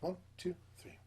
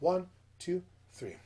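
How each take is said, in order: First: It is counted at a fast tempo. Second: It is counted at a medium tempo.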